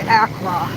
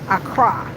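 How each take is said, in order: First: The word is said like 'ah-krah'. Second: The word is said like 'a cry'. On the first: This is how outsiders say it. The speaker calls it wrong. "So we say Accra" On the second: This is how local people say it. The speaker calls it right. "Say it right, okay?"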